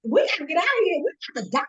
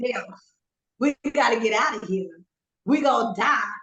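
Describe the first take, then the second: First: High-pitched, frantic mock plea; retold panic. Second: Tamer, slightly raised echo of a panicked plea; quoting back the panic. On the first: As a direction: re-enact your own panic, pitch shooting up. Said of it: "when I panic". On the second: Retold or imitated. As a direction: parrot a friend's panicked words back to them. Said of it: "Listen to what you just said".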